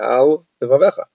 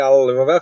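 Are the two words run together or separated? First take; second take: separated; run together. First: The two words are kept apart with a break. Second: The two words are run together without a break. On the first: The speaker calls it right. "you have to say al levavecha" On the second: The speaker calls it wrong. "you can't say al levavecha"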